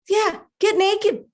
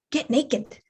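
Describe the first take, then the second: First: High, slow singsong coaxing; insistent inner voice. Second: Understated command from a voice inside; mysterious inner voice. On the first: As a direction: stretch it out high, egging someone on. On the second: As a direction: drop it in quietly, like a sudden thought. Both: Acted. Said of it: "I hear this voice and it says".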